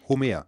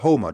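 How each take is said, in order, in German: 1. Das o klingt wie ein einfaches deutsches o. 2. Das o klingt wie der Vokal in home.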